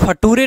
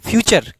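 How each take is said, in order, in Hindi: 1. इसे अक्षर-दर-अक्षर fa-too-ray की तरह पढ़ा जाता है। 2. इसे fyoo-cher बोला जाता है, ch की आवाज़ के साथ। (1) "इसको फटूरे नहीं पढ़ेंगे" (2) "क्या पढ़ते हैं? फ्यूचर।"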